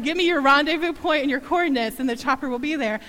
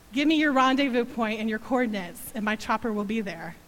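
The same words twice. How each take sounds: First: Louder strong voice. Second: Strong voice. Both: Retold or imitated. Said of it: "strong voice came across the phone".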